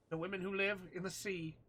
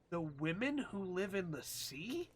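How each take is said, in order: First: Said in the usual way. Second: Slow puzzled read of "The women who live in the sea?" with a rise at sea; confused reading aloud; puzzled question; rising question. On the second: Real, not acted. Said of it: "Question mark, question mark".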